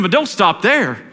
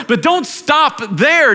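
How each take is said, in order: First: Said in the usual way. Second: "don't stop there" slow, higher and pressed; preacher urging the church, slow and high; fervent urging. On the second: Acted. Repeated with rising fervor.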